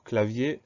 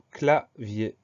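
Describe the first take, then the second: First: Said in the usual way. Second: "clavier" split slowly into cla-vier; slow dictation, separating cla and vier in "clavier"; syllable by syllable. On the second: Shown as a demonstration. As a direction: pause between the two syllables of "clavier". New word dictated syllable by syllable.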